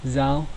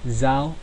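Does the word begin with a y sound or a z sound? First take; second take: z sound; z sound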